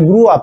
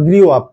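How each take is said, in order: First: The vowel is a plain 'oo' with no glide. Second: A 'y' glide comes before the 'oo' vowel. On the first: The speaker calls it right. "I গ্রু up" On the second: The speaker calls it wrong. "Not গ্রিউ up"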